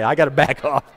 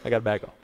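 First: Worked up. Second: Softer, lower, reining yourself in; backing off. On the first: Preacher admits he got worked up, still agitated. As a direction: still fired up while reining it in. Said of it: "I'm getting worked up". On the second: Preacher telling himself to back off, quietly restrained. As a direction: drop the volume and calm yourself down. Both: Real, not acted.

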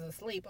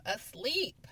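First: Said in the usual way. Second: Asleep said higher and louder; stress on asleep. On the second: Real, not acted. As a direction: hammer the word asleep in disbelief. Repeats the word for emphasis.

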